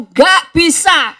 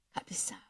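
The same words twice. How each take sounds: First: Loud, slow, flat no; loud refusal. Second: Breathy whisper, almost silent. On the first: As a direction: throw back the refusal. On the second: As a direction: let the answer fall to a hush. Preacher answers his own question. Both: Acted.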